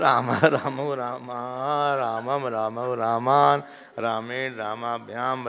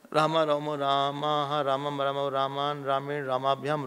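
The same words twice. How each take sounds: First: It is recited slowly and calmly, word by word. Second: It is rattled off quickly in one breath. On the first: The speaker calls it right. "ऐसे धीरे धीरे बोलो" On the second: The speaker calls it wrong. "एक एक एक सांस में बोलना है"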